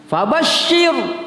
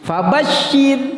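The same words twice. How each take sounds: First: "Fabashir" slow, with a thick, heavy r; "Fabashir" with the tongue raised on the r. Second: "Fabashir" slow, with a thin, light r; "Fabashir" with the r kept thin and flat. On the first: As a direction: say "Fabashir" slowly with a heavy r, as the mistake. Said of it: "ah, itu tebal". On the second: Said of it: "ro mati sebelumnya ada huruf yang berbaris bawah". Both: Shown as a demonstration.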